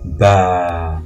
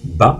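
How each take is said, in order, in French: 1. La voyelle est allongée, longue. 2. La voyelle se dit courte. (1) "Pour la longue" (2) "Pour la brève"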